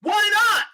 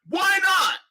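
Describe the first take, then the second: First: High indignant. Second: Indignant repeat. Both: Real, not acted.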